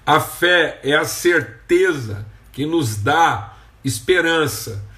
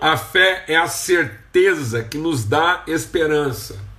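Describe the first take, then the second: First: It is said slowly. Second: It is said at a normal pace.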